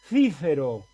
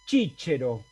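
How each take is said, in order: First: It is said with a Spanish pronunciation. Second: It is said with an Italian pronunciation. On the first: "Un español lo pronunciaba así" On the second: "italiano lo pronunciaba así"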